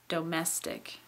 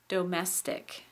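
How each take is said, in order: First: The first vowel is fully pronounced. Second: The same.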